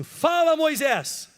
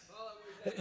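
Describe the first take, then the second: First: Calling out. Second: Soft echo. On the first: Shown as a demonstration. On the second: Real, not acted. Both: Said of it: "Fala assim em voz alta assim".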